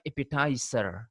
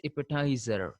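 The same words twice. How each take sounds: First: Appetizer with a hissed S; s pronunciation. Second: Appetizer with a buzzing Z; z pronunciation. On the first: Teacher shows the wrong version, appetizer with an S sound. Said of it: "not appetizer". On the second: Teacher shows learners the pronunciation, appetizer with a Z sound. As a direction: say appetizer with a voiced z before the final syllable. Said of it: "the pronunciation is appetizer". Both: Shown as a demonstration.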